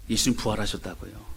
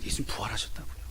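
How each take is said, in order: First: Said in the usual way. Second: Whisper. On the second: Shown as a demonstration. Preacher whispers the key line.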